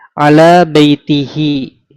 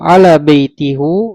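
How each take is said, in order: First: The final pronoun is pronounced with an i vowel. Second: The final pronoun is pronounced with a u vowel. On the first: The speaker calls it right. "Ala baitihi, tidak ala baituhu" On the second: The speaker calls it wrong. "Kalau ala baitihu salah"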